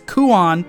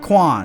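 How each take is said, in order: First: The name is said with two syllables. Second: The name is said with one syllable. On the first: The speaker calls it right. "it's Kuon" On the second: The speaker calls it wrong. "not Quan"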